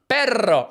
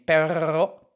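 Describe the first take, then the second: First: The R is a rolled tongue trill. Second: The R is a throaty French-style sound. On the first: The speaker calls it right. "no, roll the R" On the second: The speaker calls it wrong. "She goes all [name] on me"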